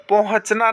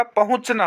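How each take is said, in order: First: पहुँचना as "pon-hach-na"; wrong vowel order. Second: पहुँचना as "pa-hunch-na"; correct vowel order. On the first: Teacher showing students the mistake, vowels swapped. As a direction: put the o first in पहुँचना. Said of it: "नहीं होता". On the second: Teacher giving students the right form, vowels in order. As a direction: put the u after h in पहुँचना. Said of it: "होता है". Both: Shown as a demonstration.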